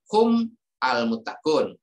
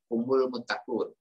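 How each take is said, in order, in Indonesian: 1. Kata ganti itu diucapkan terpisah dari kata berikutnya. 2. Kata ganti itu menyambung ke kata berikutnya dengan vokal. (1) "Kalau mau dibaca terpisah" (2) "kalau mau dibaca sambung"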